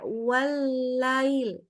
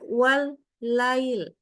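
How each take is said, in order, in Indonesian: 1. Suara mengalir tanpa jeda melewati l. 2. Suara berhenti sebentar setelah l. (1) "Kita selalu ngalir ya" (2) "bukan wal lail, nggak boleh"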